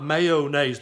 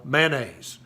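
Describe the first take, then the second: First: Mayonnaise with a full O, may-o-naise; the non-Southern may-o-naise; three-syllable mayonnaise. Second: Mayonnaise said as two syllables, man-aise; mayonnaise squeezed into two syllables, MAN-aise; Southern man-aise. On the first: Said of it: "It's not mayonnaise". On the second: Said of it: "down here in the South we call mayonnaise". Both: Shown as a demonstration.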